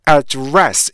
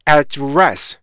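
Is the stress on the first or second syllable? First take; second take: second; second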